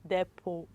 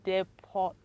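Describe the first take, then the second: First: The final T sound is silent. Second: The final T sound is pronounced. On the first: The speaker calls it right. "the word silent is letter T" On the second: The speaker calls it wrong. "not depot"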